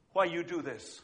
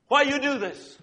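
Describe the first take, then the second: First: Quiet tearful question. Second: Put-on pleading accented question. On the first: Retold or imitated. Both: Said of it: "And she says to the lady".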